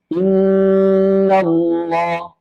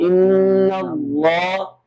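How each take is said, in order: First: The pressure falls on the doubled n sound. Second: The pressure falls on the long vowel. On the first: The speaker calls it right. "Inna Allah bukan" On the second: The speaker calls it wrong. "bebannya yang tekanan naunnya di, dibebankan kepada si mat"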